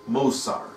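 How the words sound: The middle consonant is an 's' sound. "if you're of that type who pronounce your subs as subs"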